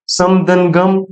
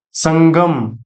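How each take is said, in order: First: सम दंगम said as two separate parts; split apart. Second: संगम said as one word with the nasal blended in; joined word. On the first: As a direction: break संगम into सम and गम. (सम और गम अलग-अलग बोलना) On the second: (संगम एक साथ जोड़कर बोलना) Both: Shown as a demonstration. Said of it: "जैसे अहम दंकार अहंकार".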